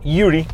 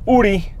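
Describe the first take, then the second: First: The name begins with a 'y' glide sound. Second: The name begins directly with a vowel sound.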